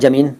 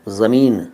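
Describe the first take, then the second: First: The word begins with a j sound. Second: The word begins with a z sound. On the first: The speaker calls it wrong. "कई लोग कहते हैं जमीन, जमीन मत कहिए" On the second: The speaker calls it right. "ज़मीन है ज़मीन ... ज के नीचे नुक्ता"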